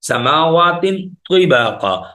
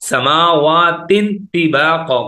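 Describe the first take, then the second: First: The t in tibaka is heavy and kept distinct. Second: The t in tibaka is light, merged with before. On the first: The speaker calls it right. "इसको मोटा करके पढ़ेंगे" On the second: The speaker calls it wrong. "दोनों की साउंड्स को मिला देते हैं"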